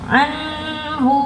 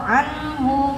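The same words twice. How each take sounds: First: The nasal n sound is drawn out long. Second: The nasal n sound is kept short. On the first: The speaker calls it wrong. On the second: The speaker calls it right.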